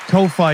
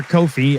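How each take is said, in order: First: Ko-fi 读成 ko-fai，尾音像 eye. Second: Ko-fi 改读 ko-fee，尾音像 fee; 纠正为 Ko-fi，念 ko-fee; Ko-fi corrected. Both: Shown as a demonstration.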